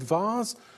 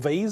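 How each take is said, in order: First: It is said with a British pronunciation. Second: It is said with an American pronunciation.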